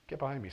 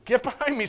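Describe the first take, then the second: First: It is said in a soft, gentle voice. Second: It is said in a firm, forceful voice. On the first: The speaker calls it wrong. "I just said that in a really gentle voice" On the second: The speaker calls it right. "I think it was probably quite a bit more straightforward"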